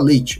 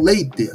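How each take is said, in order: First: The word is said in a Brazilian accent. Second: The word is said in a Galician accent. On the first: "Aqui a gente fala leite" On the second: "Os galegos falam leite, assim como os gaúchos"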